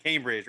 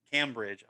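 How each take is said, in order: First: Cambridge with a long a, as in came; local pronunciation. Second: Cambridge with a short "cam" as in camera; wife's pronunciation. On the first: Shown as a demonstration. Host who grew up in Salisbury, Cambridge the local "CAME-bridge" way. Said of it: "We call it Cambridge". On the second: Retold or imitated. Host imitating his wife's way of saying it, Cambridge as "CAM-bridge". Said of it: "My wife likes to say".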